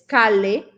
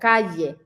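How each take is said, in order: First: The middle consonant sounds like a plain l. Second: The middle consonant sounds like a y. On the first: The speaker calls it wrong. "puede ser que no te entiendan" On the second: The speaker calls it right. "la doble L en español va a tener sonido de y"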